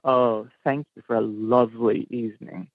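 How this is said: It sounds sarcastic, stressing lovely.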